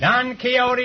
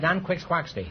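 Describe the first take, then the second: First: The name ends with a soft 'hoh-tee' sound. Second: The name ends with a hard 'kwax-tee' sound. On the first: "Don Quixote is right" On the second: "Until I was forty years old, I pronounced that Don Quixquaxty"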